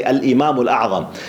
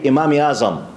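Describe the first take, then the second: First: "Al-Imam Al-A'zam" with full Arabic article and throaty ayn; Arabic pronunciation. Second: "Imam Azam" in a Pakistani accent, article dropped. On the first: Lecturer shows students the Arabic form, Arabic pronunciation. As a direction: say "Al-Imam Al-A'zam" as classical Arabic, each part sounded. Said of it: "in Arabic we say". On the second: Lecturer shows how Kashmiri brothers say it, Pakistani accent. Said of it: "the Pakistani accent they say". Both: Shown as a demonstration.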